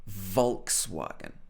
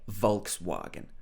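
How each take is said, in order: First: The W is pronounced as a W, British style. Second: The same.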